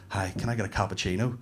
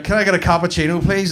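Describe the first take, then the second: First: Soft, low, polite order; understated, hushed customer voice; gentle advert customer. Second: Louder, higher-pitched order; raised-voice acted request; customer at local counter. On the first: Acted. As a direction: ask softly, as in an earnest advert. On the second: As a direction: pipe up over the counter. Same order, in local version.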